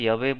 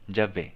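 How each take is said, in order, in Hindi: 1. यह शब्द y की आवाज़ से शुरू होता है। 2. यह शब्द j की आवाज़ से शुरू होता है। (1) "वो ना तो बोलने में ठीक लगेगा और अशुद्ध भी रहेगा" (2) "यहाँ पे य को यहाँ ज प्रोनाउंस होगा बंगाली में"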